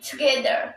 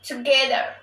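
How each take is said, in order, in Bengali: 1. প্রথম স্বরধ্বনিটি ক্ষীণ ও দুর্বল। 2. প্রথম স্বরধ্বনিটি ক্ষীণ ও দুর্বল।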